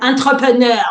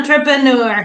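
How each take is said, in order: First: It is said with a French pronunciation. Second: It is said with an English pronunciation.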